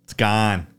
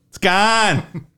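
First: Said in the usual way. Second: Mock Boston accent. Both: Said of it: "That Boston accent".

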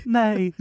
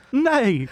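First: A shorter, higher mock British neigh through laughter; British horse neigh again. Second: A high, laughing mock neigh in a British accent; British horse neigh. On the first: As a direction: repeat the silly British neigh on request. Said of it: "Do it again, just for safety". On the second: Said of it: "Do you think the horses neigh in, like, a British accent".

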